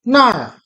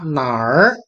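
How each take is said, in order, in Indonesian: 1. Diucapkan dengan nada keempat. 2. Diucapkan dengan nada ketiga. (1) "Yang nomor enam itu ada nada keempat nar sana" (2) "Nomor empat itu nada ketiga nar ya artinya mana"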